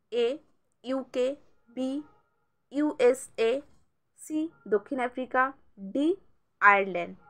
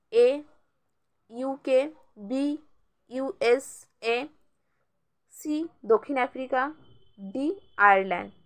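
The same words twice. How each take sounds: Both takes have the same delivery.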